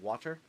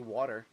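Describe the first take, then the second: First: The middle consonant sounds like a t. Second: The middle consonant sounds like a d. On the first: "instead of water" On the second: "which is like W A D E R"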